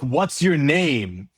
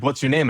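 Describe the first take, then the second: First: A drawn-out, slow, impatient repeat; slow repeated question. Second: Said in the usual way. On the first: Retold or imitated. Quoting the annoyed worker repeating the question slowly. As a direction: repeat it slowly as if to someone who didn't hear. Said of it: "They're like". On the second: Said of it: "they're like".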